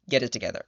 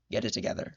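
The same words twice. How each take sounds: First: Said in the usual way. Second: Dropped to an unvoiced whisper; hushed plea. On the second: Whispering to the author after yelling, hushed and pleading. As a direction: breathe it out like a tired plea. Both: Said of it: "And I was just like".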